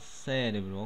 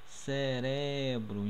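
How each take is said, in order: First: The stress is not on the second syllable. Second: The stress is on the second syllable, re. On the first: This is the Portuguese word. "no português a gente fala cérebro" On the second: This is the Spanish word. "o som forte está no R aqui"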